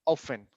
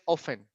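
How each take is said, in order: First: The T sound is left out. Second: The T sound is left out.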